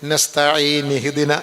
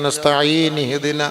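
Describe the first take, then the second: The two takes are said the same way.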